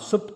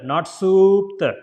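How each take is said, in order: First: The oo vowel is short. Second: The oo vowel is long. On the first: The speaker calls it right. "a small oo sound" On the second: The speaker calls it wrong.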